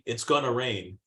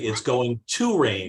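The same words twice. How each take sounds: First: The word 'to' is reduced and weak. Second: The word 'to' is said fully like 'two'. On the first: The speaker calls it wrong. "You don't say it's going to rain" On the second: The speaker calls it right. "is pronounced as if it's T W O"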